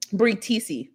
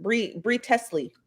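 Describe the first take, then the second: First: Teesey said as "TEE-see", long ee and no l; corrected name. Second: Teasley said as "TEZ-lee", short e; first try at the name. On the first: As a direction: settle on Teesey, long ee, no l sound. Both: Shown as a demonstration. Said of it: "I think that's how you pronounce it".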